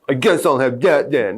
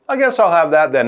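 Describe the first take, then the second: First: It sounds very sad and gloomy. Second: It sounds mildly disappointed but accepting. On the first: The choice is truly upsetting. "Not, ... He's not super sad" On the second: The choice is acceptable though not ideal. "he's a disappointed, but that actually sounds okay"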